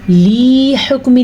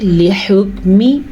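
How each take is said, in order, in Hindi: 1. "l" के बाद का स्वर लंबा खींचा जाता है। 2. "l" के बाद का स्वर छोटा रखा जाता है।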